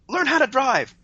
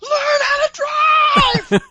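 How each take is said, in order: First: It is shouted, but not at full volume. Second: It is screamed as loud as possible.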